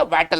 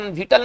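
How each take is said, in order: First: वाइटल with "ai" as in "eye"; the proper reading वाइटल, first syllable "vai"; correct pronunciation of वाइटल. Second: विटल with a short i, "VIT-al"; the mistaken reading विटल, short first vowel; wrong pronunciation shown. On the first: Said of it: "वाइटल पढ़ेंगे". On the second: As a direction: begin विटल with "vi" rather than "vai". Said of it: "इसका उच्चारण विटल नहीं पढ़ेंगे". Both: Shown as a demonstration.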